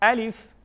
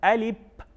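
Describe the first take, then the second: First: The word ends with an f sound. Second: The word ends with a p sound. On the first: The speaker calls it right. "इसकी proper pronunciation जो है वो है अलिफ" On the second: The speaker calls it wrong. "बाज़ लोग इसको गलत पढ़ते हैं, इसको पढ़ते हैं अलिप"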